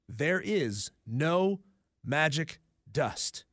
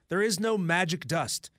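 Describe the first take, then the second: First: It is said slowly and deliberately. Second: It is said at normal speed.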